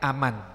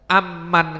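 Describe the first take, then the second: First: The m sound is short and single. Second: The m sound is held long and doubled.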